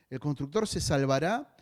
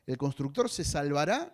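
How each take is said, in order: Both takes have the same delivery.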